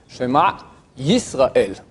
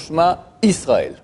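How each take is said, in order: First: The second word begins with a y sound. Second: The second word begins with a plain vowel. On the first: The speaker calls it right. "ça serait un Y plutôt, Yisraël" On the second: The speaker calls it wrong. "c'est faux"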